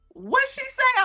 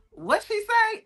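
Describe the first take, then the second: First: Even higher, hammed-up baffled question; over-the-top puzzled voice; exaggerated confused face. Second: Much higher, puzzled question; squeaky confused-listener voice; mock confused listener. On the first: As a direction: play up the audience's confusion. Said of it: "somebody's face literally go". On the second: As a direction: imitate a baffled audience member. Confused audience quoted.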